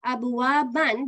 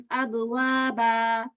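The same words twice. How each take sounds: First: "Abuwaban" closed with a short -an; fatatain ending. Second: "abuwaba" with a long final a, no n; two-count ending. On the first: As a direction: sound the final n of "Abuwaban". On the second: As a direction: stretch the last vowel of "abuwaba" for two counts. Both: Shown as a demonstration. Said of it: "it becomes two count sound".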